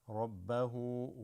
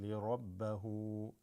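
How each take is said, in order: Both takes have the same delivery.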